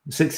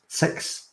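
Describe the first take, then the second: First: The vowel sounds like the one in 'six'. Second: The vowel sounds like the one in 'sex'. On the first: "Six is the way you should say it. It's the proper way" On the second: "someone with a Scottish accent... they say the number six like sex"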